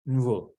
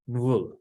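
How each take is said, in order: First: The n runs straight into the v. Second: The same.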